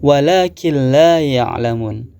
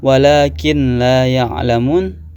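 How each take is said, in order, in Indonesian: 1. Bunyi n melebur menjadi l ganda, tanpa sengau. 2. Bunyi n tidak melebur ke l. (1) "diidghamkan ... dan juga tanpa mendengung" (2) "Tidak boleh dibaca walakin la ya'lamun"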